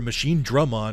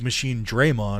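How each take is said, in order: First: The middle syllable sounds like 'drum'. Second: The middle syllable sounds like 'dray'. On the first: This is the pronunciation used in the earlier show. The speaker calls it right. "they had season one where they said Machine Drummon" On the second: This is the pronunciation used in the newer game. The speaker calls it wrong. "Surely it was always Machine Draymon"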